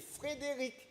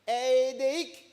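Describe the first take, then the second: First: Every sound of the name is pronounced fully. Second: Several consonants are dropped, like a toddler's speech. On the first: The speaker calls it right. "Il faut que je lui dise c'est Frédéric" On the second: The speaker calls it wrong. "parce qu'il ne sait pas encore bien prononcer"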